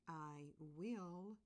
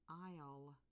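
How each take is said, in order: First: Two separate words are said in full. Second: The words are pushed together into one syllable. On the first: "I'm going to say the two words" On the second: "the contraction, where the words are smushed together"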